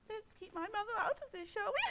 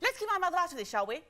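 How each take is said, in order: First: It is said sadly. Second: It is said rapidly.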